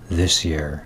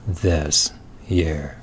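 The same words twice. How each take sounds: First: The two words are run together. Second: The two words are said separately.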